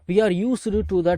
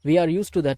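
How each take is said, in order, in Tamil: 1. 'used' இல் உள்ள d ஒலி தெளிவாக உச்சரிக்கப்படுகிறது. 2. 'used' இல் உள்ள d ஒலி முழுவதும் விடப்படுகிறது.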